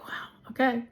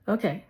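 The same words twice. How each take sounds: First: Hushed, taken aback; a breathless whispered wow; stunned whisper. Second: Said in the usual way. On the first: Retold or imitated. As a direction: whisper it in disbelief. Retold stunned reaction to denial.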